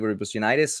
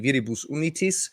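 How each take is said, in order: First: It is pronounced with English-style sounds. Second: It is pronounced with German-style sounds. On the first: "with the English" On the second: "with the Austrian or the German pronunciation"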